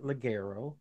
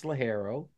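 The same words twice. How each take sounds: First: "ligero" said with a hard g, "luh-GAIR-oh"; hard-g pronunciation. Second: "ligero" with the g as an h, "lee-HAIR-oh"; Spanish pronunciation. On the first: Host showing how some people mispronounce the leaf's name, "ligero" with a hard g. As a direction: say "ligero" with a g as in "get". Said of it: "Some people pronounce it". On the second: Host correcting the leaf's name, "ligero" with an h sound for g. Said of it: "but it's ligero". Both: Shown as a demonstration.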